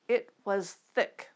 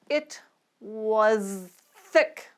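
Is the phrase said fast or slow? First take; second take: fast; slow. First: The phrase is spoken faster. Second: The phrase is spoken slowly. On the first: "Let's try them a little faster" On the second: "We'll start slowly"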